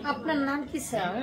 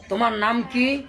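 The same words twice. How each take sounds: First: Softly respectful "আপনার নাম কি, sir?"; quiet courteous question to an elder; polite and soft. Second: Casual tu-form, blunt rising "তোমার নাম কি?"; offhand, careless asking of a name; rude familiar question. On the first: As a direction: ask "আপনার নাম কি" gently, with deference. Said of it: "যখন ভদ্র হবে, সম্মানিত হবে". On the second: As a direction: ask "তোমার নাম কি" as if to a kid. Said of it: "বলা যাবে?". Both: Shown as a demonstration.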